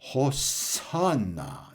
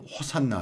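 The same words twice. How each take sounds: First: The second syllable is stressed. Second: The second syllable is not stressed. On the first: This is how European languages say it. "두 번째 음절인 산에 액센트가 있어요" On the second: This is how Koreans say it. "우린 호산나 하지만"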